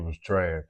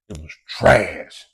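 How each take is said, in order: First: It is said in his ordinary speaking voice. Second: It is said in an exaggerated put-on character voice.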